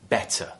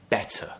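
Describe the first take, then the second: First: The middle T is a clear T sound. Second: The same.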